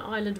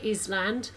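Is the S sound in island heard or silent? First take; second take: silent; heard. First: The word has a silent S. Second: The word has an audible S sound. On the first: The speaker calls it right. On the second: The speaker calls it wrong.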